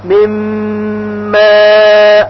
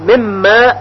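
First: من ماء with full nasal merge; correct ghunna. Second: من ماء said plainly, nun not merged; quick flat reading of من ماء; wrong, no ghunna. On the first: Teacher gives students the correct reading, humming. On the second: Teacher shows students the wrong reading, plain. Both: Shown as a demonstration.

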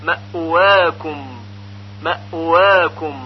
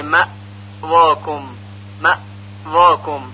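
First: مأواکم as ma'uwaakum, gliding into و; correct eased hamza. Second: مأواکم as ma, silence, vaakom; wrong choppy stop. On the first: Teacher correcting it, smooth Arabic w after hamza in مأواکم. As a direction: release the hamza into a rounded w. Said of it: "گفته نمیشه مأواکم". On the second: Teacher showing what is not said, dead gap in مأواکم. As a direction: chop after مأ, hard v for و. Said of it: "گفته نمیشه". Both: Shown as a demonstration.

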